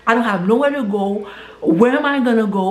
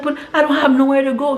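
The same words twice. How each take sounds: First: Said in the usual way. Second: Higher, fast, frightened plea; panicked plea. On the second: Retold or imitated. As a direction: blurt it out, scared and lost. Stranded woman panics.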